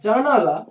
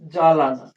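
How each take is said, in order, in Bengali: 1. দ্বিতীয় দল n ধ্বনি দিয়ে শুরু হয়। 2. দ্বিতীয় দল l ধ্বনি দিয়ে শুরু হয়। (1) "ছিল জানালা" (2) "কে উচ্চারণ করছে জালানা"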